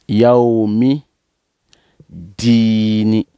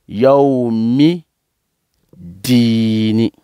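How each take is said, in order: No difference in how they are said.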